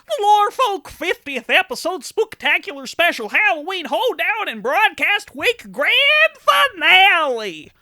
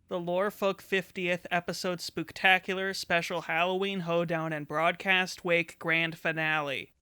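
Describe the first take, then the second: First: It is said loudly, with lots of energy. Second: It is said plainly, without much energy.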